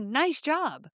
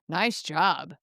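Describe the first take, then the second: First: It sounds sincere and encouraging. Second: It sounds sarcastic and mocking. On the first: The listener did well. "it can be genuine encouragement" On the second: The listener made a mistake. "sarcastic eye roll"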